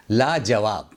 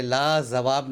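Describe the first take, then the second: First: 'लाजवाब' with a clear j in the middle; correct pronunciation. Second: 'लाजवाब' with z in place of j; wrong pronunciation. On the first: Teacher corrects the word, properly pronounced. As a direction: say j, not z, in 'लाजवाब'. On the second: Teacher rejects the common error, mispronounced. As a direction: put a buzzing z in 'लाजवाब'. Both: Shown as a demonstration. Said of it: "लाजवाब नहीं है".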